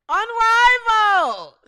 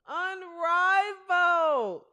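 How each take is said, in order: First: Loud, higher, drawn-out announcer call; announcer shout. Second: Slow, stretched league name without shouting; drawn-out announcer call. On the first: Host opening the Unrivaled segment, loud announcer shout. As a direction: shout the league name like an arena announcer. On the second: Host introducing the Unrivaled rosters, drawn-out announcer call. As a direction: draw the name out, holding each syllable. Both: Real, not acted.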